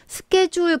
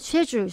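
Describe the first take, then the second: First: It is said in an American accent, starting 'sk'. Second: It is said in a British accent, starting 'sh'. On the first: "미국에서는" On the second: "영국에서는 쉐줄"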